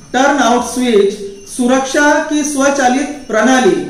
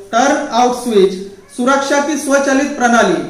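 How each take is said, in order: The two takes are said the same way.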